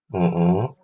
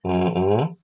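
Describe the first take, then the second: Both takes have the same delivery.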